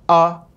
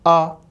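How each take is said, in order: First: The vowel starts with a firm, tight attack. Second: The same.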